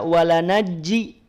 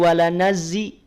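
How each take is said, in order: First: The middle consonants are both a j sound. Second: The middle consonants are both a z sound. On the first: "tidak dibaca walanajji" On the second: "atau walanazzi"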